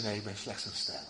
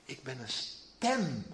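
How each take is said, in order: First: Zacht en laag, bescheiden; nederig zacht. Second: Zacht, traag en laag; nederig zacht. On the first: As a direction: laat het wegvallen, nederig. Johannes antwoordt nederig. (zachtjes en nederig als Johannes) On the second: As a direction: zeg het langzaam en bescheiden. Johannes antwoordt als hem gevraagd. (langzaam en nederig als Johannes) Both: Acted.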